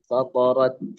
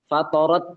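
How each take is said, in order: First: The consonant has no hissing S-like quality. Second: The consonant has a hissing S-like quality. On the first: The speaker calls it right. "Yang benar adalah" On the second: The speaker calls it wrong. "Jangan sampai ada S-nya... itu itu salah ya"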